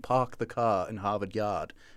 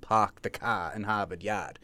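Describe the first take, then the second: First: It is said in a British accent. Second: It is said in a Boston accent. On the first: "if you listen to British English" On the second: "which is not a very far leap to"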